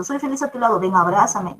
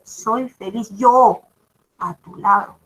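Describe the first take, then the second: First: Said in the usual way. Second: "yo" lento y marcado, frase muy lenta; énfasis en yo. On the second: Shown as a demonstration. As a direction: alarga "soy feliz yo" y recalca "yo". (la profesora corrige el ejemplo, lento y recalcando "yo") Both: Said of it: "No, solo es".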